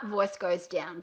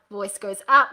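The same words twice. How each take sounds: First: DOWN low and softer; voice going down. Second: UP punched with a rising tune; voice going up. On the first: Coach repeats the rule, sinking low on down. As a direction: drop the pitch and level on down. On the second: Coach repeats the rule, rising on up. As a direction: lift hard on up. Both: Shown as a demonstration.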